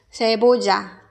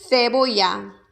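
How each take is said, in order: First: The double L sounds like a j. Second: The double L sounds like a y. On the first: "아마도 멕시코에서는 세보자" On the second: "스페인에서는 세보야"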